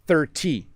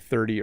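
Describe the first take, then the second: First: The T is a crisp, hard T. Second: The T is soft and sounds like a D. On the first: The speaker calls it wrong. "we don't say it that way" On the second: The speaker calls it right. "We say thirty or forty"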